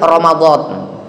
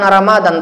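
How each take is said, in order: First: It is said with the Arabic pronunciation. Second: It is said with the everyday Indonesian pronunciation. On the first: This is how it is said in Arabic and the Quran. The speaker calls it right. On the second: This is the local way of saying it. The speaker calls it wrong. "bukan Ramadan"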